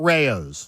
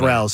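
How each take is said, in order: First: The first syllable rhymes with 'say'. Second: The first syllable rhymes with 'how'. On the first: The speaker calls it wrong. "I know it's not Rayo's" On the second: The speaker calls it right. "it's Ral's"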